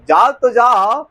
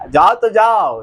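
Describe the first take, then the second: First: Slow, lightly sung-out dare to leave; mock taunt. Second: Said in the usual way. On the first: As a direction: tease him to go, drawing it out. Wife taunting husband leaving. (ताना मारते हुए धीरे से)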